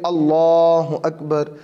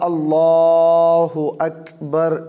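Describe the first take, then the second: First: The phrase is said at normal length. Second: The phrase is stretched out very long. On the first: The meaning stays as intended. The speaker calls it right. "बस नॉर्मल हालत में" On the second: The meaning of the words changes. The speaker calls it wrong. "ज़्यादा लंबा अल्लाहु अकबर ऐसे नहीं करना चाहिए"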